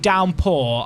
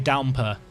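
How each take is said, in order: First: The final r sound is clearly pronounced. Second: The final r sound is dropped. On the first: "I wouldn't say downpour" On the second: "I'd say downpour"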